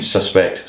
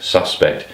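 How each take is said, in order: First: Suspect stressed on the second syllable, su-SPECT, rising; verb stress. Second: Suspect stressed on the first syllable, SUS-pect, falling; noun stress. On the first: Tutor saying suspect as a verb, su-SPECT, to a solver. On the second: Tutor saying suspect as a noun, SUS-pect, to a solver. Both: Shown as a demonstration. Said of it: "suspect is no different from suspect or suspect".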